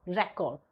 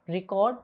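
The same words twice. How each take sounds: First: RECORD as REC-ord, first syllable stressed; the noun "record", REC-ord; stress contrast on RECORD. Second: RECORD as ri-CORD, second syllable stressed; the verb "record", ri-CORD; stress contrast on RECORD. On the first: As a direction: hit REC in "record", then drop. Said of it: "one is data". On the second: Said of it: "to record something". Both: Shown as a demonstration.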